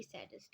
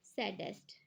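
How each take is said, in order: First: Whispered saddest, barely audible. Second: Said in the usual way. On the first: Shown as a demonstration. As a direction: breathe the word saddest as a whisper. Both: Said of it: "S A double D E S T".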